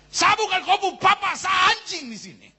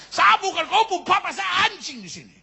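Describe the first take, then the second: First: Put-on high, loud drunken yell; angry shout. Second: Put-on high, loud drunken yell again; angry shout. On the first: Drunk father yelling angrily at his child. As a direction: bellow it at the kid. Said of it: "Papa marah sekali". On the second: Drunk father yelling angrily at his child once more. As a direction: roar it out. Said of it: "dia so marah sekali".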